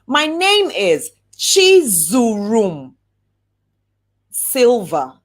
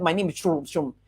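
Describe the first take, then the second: First: Slow, proud, every syllable of "Chizurum" given its room; slow clear introduction. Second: Quick, swallowed name, hard to catch; rushed mumbled name. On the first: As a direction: say "Chizurum" slowly, letting each syllable land. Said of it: "take your time and say". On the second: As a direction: mumble the name fast and low. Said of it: "They just heard". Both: Shown as a demonstration.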